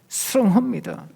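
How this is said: It is said through tightly clenched teeth. The love is forced out through effort. "이를 악물고 해야 된다고"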